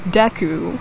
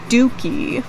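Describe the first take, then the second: First: The first vowel is 'eh', like 'Deh-koo'. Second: The first vowel is 'oo', like 'Dookie'. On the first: The speaker calls it right. "because it's Deku" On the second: The speaker calls it wrong. "my mind would like switch the U and the E and I would pronounce it as"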